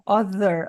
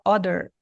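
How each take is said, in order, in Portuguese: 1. O som do meio é um th suave. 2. O som do meio é um d forte. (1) "em vez de falar ah, other" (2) "A gente faz um D ali"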